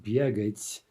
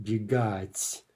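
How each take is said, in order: First: Бегать stressed on the first syllable, slowly; wrong stress. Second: Бегать stressed on the last syllable, very slowly; бегать with stress at the end; correct stress. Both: Shown as a demonstration. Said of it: "The only difference, though, is the stress".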